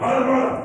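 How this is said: It is said in a harsh, scolding tone.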